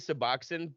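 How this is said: It is said the South Jersey way.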